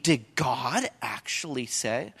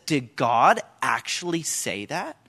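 First: Slow, lower, softer snake question; hushed serpent echo. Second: Slow, low sly question rising at the end; mocking serpent. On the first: Acted. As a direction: murmur the doubt slowly like the serpent. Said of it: "The first lie comes in the form of a question". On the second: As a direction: plant doubt like the snake, drawing it out. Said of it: "he says".

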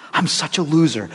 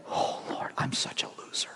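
First: Said in the usual way. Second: Whispered, despairing mock prayer; mock self-pity whisper. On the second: Pastor mocking a self-condemning prayer, hushed whisper. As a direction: whisper it like a defeated sinner.

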